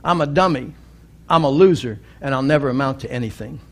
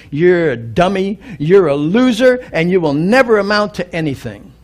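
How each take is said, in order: First: Trailing off faster at the end; resigned acceptance. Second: Deliberate teacher's insult spelled out; scornful put-down. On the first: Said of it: "and he said". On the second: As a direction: sneer down at him like a harsh teacher. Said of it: "stood up and said". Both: Retold or imitated.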